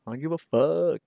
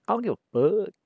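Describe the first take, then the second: First: Comedian catchphrase. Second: Comedian catchphrase, higher. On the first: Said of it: "He does, like, impressions". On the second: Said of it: "he's like". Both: Retold or imitated.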